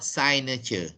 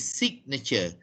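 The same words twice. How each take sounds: First: The first vowel is long, as in 'sign'. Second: The first vowel is short, as in 'sig'. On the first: The speaker calls it wrong. "not signature" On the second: The speaker calls it right. "but it is signature"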